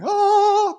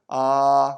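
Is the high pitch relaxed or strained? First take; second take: strained; relaxed. First: The pitch is extremely high and strained. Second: The pitch is high but relaxed and natural. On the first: The speaker calls it wrong. "I'm not going to be going" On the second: The speaker calls it right. "It's my natural, without strain, high"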